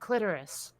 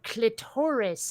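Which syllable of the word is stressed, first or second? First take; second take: first; second. First: The stress is on the first syllable. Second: The stress is on the second syllable. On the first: The speaker calls it right. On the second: The speaker calls it wrong.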